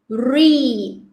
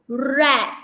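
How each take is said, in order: First: "read" said like REED; long drawn ee in "read", falling; present-tense pronunciation. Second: "read" said like RED; short e in "read", as in red; past-tense pronunciation. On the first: Teacher contrasting tenses for class, "read" pronounced as reed. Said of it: "present tense". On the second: Teacher contrasting tenses for class, "read" pronounced as red. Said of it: "Past tense". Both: Shown as a demonstration.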